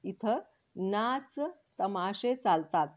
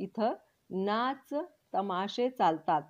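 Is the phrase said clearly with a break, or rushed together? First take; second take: clear; clear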